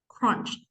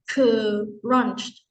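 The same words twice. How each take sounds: First: The word is said as one syllable. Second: The word is split into two syllables. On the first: The speaker calls it right. "your mouth should open only one time" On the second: The speaker calls it wrong. "it's like two"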